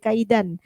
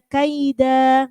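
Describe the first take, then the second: First: The word ends with an N sound. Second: The word ends on a long open vowel. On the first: The speaker calls it wrong. "Enggak boleh kaidan" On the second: The speaker calls it right. "maka bunyinya kaida"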